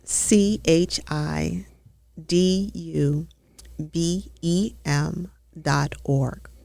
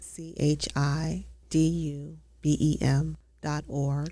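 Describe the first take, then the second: First: It is said louder, with more energy. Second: It is said at a normal volume.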